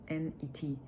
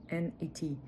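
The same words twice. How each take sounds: The two takes are said the same way.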